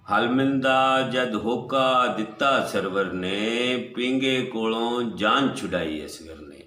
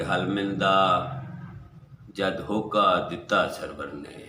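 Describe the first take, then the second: First: Half-sung, sustained line endings; melodic verse recital. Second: Said in the usual way. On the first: Acted. Poet repeating his couplet to the gathering, melodic recital.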